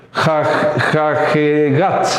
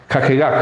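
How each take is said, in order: First: "jajegat" drawn out slowly, piece by piece; slow sounding-out. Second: Said in the usual way. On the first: Shown as a demonstration. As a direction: sound out "jajegat" haltingly, stretching it. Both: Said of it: "ahí pronunciamos".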